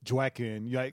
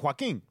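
First: The name is said with an English accent. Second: The name is said with a Spanish accent. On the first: The speaker calls it wrong. "you don't say Joaquin" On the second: The speaker calls it right. "With the accent"

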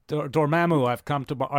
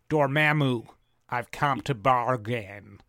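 First: It is said without a put-on American accent. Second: It is said in an English-style mock American accent.

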